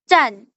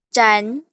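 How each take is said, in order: First: The pitch falls sharply from high to low. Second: The pitch rises from middle to high. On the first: "Nada keempat" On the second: "Nada kedua"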